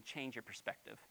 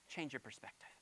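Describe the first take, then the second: First: Much softer, lower voice; gentle, quiet. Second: Soft whispered repeat. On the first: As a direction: say it gently, drawing them in. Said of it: "gentle repeated line". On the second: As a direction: breathe it as a secret. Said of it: "repeated as whisper". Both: Shown as a demonstration.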